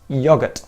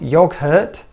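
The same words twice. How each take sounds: First: No h sound is heard in the word. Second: An h sound is heard in the word. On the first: The speaker calls it right. "That silent H is in there" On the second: The speaker calls it wrong. "It's not yogurt"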